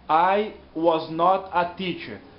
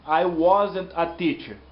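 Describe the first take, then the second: First: Was not is said as two full words. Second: Was not is contracted into one syllable. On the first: The speaker calls it wrong. "A forma completa daquela frase é I was not a teacher" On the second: The speaker calls it right. "nós vamos falar I wasn't a teacher"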